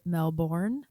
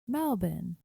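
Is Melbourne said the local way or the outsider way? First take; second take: outsider; local. First: Melbourne is said the way some outsiders say it. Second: Melbourne is said the way locals say it. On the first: The speaker calls it wrong. "Some of you guys might pronounce it" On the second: The speaker calls it right. "but it's actually"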